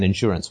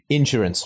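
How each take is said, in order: First: It is said with a British pronunciation. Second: It is said with a Texan pronunciation. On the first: This is how standard British English says it. "rather than insurance, which is how right. I think the Queen's English goes" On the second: The speaker is from Texas. "the Texas connection when you said insurance"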